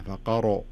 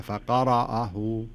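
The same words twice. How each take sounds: First: "فقرأ" with lips tight and rounded on ق and ر; "فقرأ" lips pushed round; pursed-lip mistake. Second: "فقرأه" slowly with open, relaxed lips; "فقرأه" recited slowly with no lip rounding; correct recitation. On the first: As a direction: say "فقرأ" squeezing the lips on the qaf. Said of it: "الفم عند نطق القاف أو الراء يصير فيه كزة". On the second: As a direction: say "فقرأه" drawn out, lips loose on ق and ر. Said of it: "خلها". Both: Shown as a demonstration.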